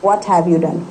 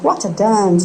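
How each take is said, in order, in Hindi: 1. 'Have you' साफ़ तौर पर पूरा बोला जाता है। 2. 'Have you' को छोटी 'a' ध्वनि में घटा दिया जाता है।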